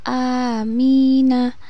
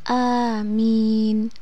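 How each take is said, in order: First: The word ends on a vowel after n. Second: The word ends on a bare n sound. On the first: The reader continues without stopping. "ketika huruf na ini diwasolkan atau dibaca terus maka dibaca sesuai dengan harokatnya" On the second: The reader stops after this word. "ketika huruf na diwakafkan maka dibaca sukun"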